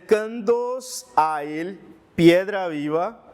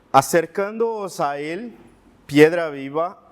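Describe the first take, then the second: No difference in how they are said.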